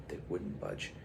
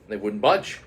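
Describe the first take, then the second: First: Soft repeat. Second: Said in the usual way. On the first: A narrator's reading.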